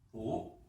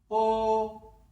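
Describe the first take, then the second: First: The syllable is said in the second tone. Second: The syllable is said in the first tone. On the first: "그 다음에 이 성입니다" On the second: "먼저 일 선입니다"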